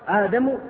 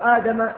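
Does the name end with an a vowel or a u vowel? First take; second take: u vowel; a vowel. First: The name ends with a short u vowel. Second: The name ends with a short a vowel. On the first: Adam is the one who won the argument. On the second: Moses is the one who won the argument.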